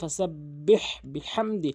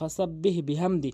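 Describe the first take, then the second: First: The h sound is pressed from the throat. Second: The h sound is light, without throat pressure. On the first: The speaker calls it right. "হলকের মাঝখান থেকে চাপ দিয়ে বলতে হবে" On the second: The speaker calls it wrong. "অধিকাংশ লোক ফাসা বিহ বিহামদি বলে, ... এখানে সম্পূর্ণ ভুল।"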